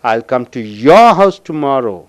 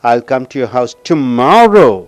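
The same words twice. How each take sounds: First: The word your is stressed. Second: The word tomorrow is stressed. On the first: The speaker will visit only this person's house. "I will come only to your house tomorrow" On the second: The speaker will come tomorrow, not another day. "நாளைக்கு அழுத்தம் கொடுக்கும்போது"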